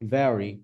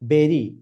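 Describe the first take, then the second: First: The word starts with a v sound. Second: The word starts with a b sound. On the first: The speaker calls it right. "So আপনার বলতে হবে ভেরি" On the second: The speaker calls it wrong. "এইভাবে যদি বলেন, you know, মানুষ হাসবে।"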